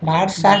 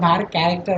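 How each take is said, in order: First: The ending is said as one short syllable. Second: The ending is said as the full word character. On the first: The speaker calls it wrong. "var স্টার না" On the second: The speaker calls it right. "এটাকে var ক্যারেক্টার বলে"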